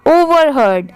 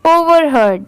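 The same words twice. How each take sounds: The two takes are said the same way.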